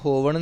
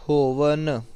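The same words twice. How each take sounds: First: ਹੋਵਣ ending in curled-tongue ṇ; wrong retroflex n. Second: ਹੋਵਨ ending in dental "n"; tongue at the teeth for the n of ਹੋਵਨ; correct dental n. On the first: Teacher showing what not to say, retroflex n. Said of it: "ਹੋਵਣ ਨਹੀਂ ਕਹਿਣਾ". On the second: Teacher asking for nanna, dental n. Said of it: "ਨੰਨਾ ਲਾਉਣਾ". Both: Shown as a demonstration.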